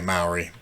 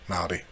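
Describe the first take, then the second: First: The middle consonant is an English r sound. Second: The middle consonant is a soft L-D sound. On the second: This is how the people themselves say their name. "the Māori, say Māori"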